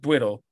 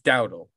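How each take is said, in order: First: The name is said like 'Dwiddle'. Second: The name is said like 'Dowdle'. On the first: The speaker calls it wrong. "It's not Dwiddle" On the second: The speaker calls it right. "It's Dowdle"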